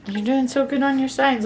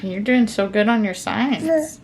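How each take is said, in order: First: Higher praise. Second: Said in the usual way. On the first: Real, not acted. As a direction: lift the voice to cheer her on. Praising toddler's signing.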